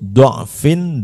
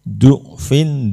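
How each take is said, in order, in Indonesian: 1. Vokal pertama terbuka, seperti 'a' atau 'o'. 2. Vokal pertama adalah 'u' bulat. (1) "boleh dibaca dhammah atau fathah" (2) "ini boleh dibaca du'fin"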